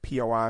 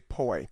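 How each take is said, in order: First: It is said as three separate letters. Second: It is said as a single word. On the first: The speaker calls it right. "You need to read say the letters" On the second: The speaker calls it wrong. "You don't say POI"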